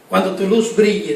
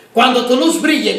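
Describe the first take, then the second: First: Said in the usual way. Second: Rising preaching fervor. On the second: Real, not acted. Preacher repeats line, building up.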